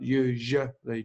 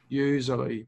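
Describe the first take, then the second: First: The middle consonant is a soft zh sound. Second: The middle consonant is a buzzing z sound. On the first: The speaker calls it right. "that second sound is like j" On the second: The speaker calls it wrong. "I think you're saying it like z"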